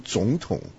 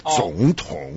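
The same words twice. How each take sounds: First: The first syllable rises, the second stays low. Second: Both syllables carry a low third tone. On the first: "一个二声一个三声，一个高一个低" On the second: "两个连续的三声我们就避免了"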